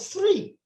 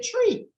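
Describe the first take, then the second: First: The word begins with a th sound. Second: The word begins with a plain t sound. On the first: The speaker calls it right. "instead of three" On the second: The speaker calls it wrong. "we tend to say tree"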